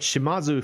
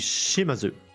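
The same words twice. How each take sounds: First: The stress is on a later syllable. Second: The stress is on the first syllable. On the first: "feels more normal to me" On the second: "you put the emphasis on the third s- syllable before the end"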